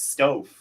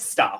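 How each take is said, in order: First: The name has a long 'o' vowel, like stove. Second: The name has a short 'a' vowel, like staff. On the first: The speaker calls it wrong. "you think it's Stove" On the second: The speaker calls it right. "but it's Staff"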